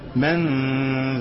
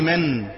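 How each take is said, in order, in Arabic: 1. النون مخفية في غنّة أنفية. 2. النون تُنطق بضربة خفيفة من اللسان. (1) "خلي اللسان متعلق" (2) "اوعى تقول لي من، ما تخليش لسانك يضرب فوق، لو ضرب فوق هيجيب لي اظهار"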